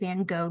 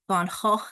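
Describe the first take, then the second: First: Van Gogh is said with an English pronunciation. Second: Van Gogh is said with a Dutch pronunciation.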